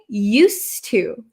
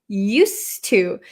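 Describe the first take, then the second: Both takes have the same delivery.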